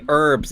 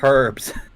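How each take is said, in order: First: It is said the American way, without the h. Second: It is said the British way, with the h. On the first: "I say herbs" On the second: "instead of herbs"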